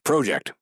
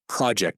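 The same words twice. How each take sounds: First: The word is said with a Canadian pronunciation. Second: The word is said with an American pronunciation. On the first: "We're in Canada, so we can say project. Let's be nationalists" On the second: "that's how Americans say it"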